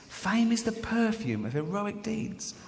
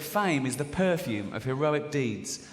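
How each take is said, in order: First: Higher-pitched, slow repeat of the quote; wondering repeat. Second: Said in the usual way. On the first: Acted. Quote repeated for comic effect.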